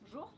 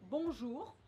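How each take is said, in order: First: The word is shortened with sounds dropped. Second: The word is said in full with every sound. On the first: "they'll often just say bonjour" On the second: "instead of saying bonjour"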